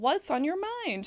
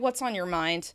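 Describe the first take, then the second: First: The pitch stays high and concerned. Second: The pitch drops at the end. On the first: The asker is concerned and invites the person to share. The speaker calls it right. "I'm repeating it just so you can keep hearing the tone" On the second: The asker is annoyed and does not want to hear more. The speaker calls it wrong. "With a drop at the end, that shows annoyance"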